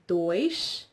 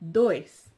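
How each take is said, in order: First: The word ends with a sh sound. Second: The word ends with an s sound. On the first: This is the European pronunciation. "if you pronounce it in European Portuguese, it's dois" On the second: This is the Brazilian pronunciation. "if you pronounce it in Brazilian Portuguese, it's dois"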